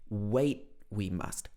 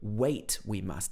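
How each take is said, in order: First: The t of wait is a throat catch. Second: The t at the end of wait is released. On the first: "doesn't pronounce the T on the end of this word" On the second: "He doesn't say"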